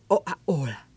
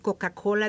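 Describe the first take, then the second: First: Both k sounds are dropped from the word. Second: Both k sounds are clearly pronounced. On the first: The speaker calls it wrong. "dicen Oa-ola" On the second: The speaker calls it right. "En lugar de decirte Coca-Cola"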